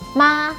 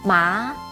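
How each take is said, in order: First: It is said with the first tone. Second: It is said with the second tone.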